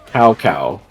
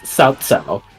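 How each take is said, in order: First: Each syllable sounds like 'cow'. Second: Each syllable does not sound like 'cow'. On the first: The speaker calls it wrong. "they pronounce it Cow Cow the whole time" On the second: The speaker calls it right. "It's Cao Cao"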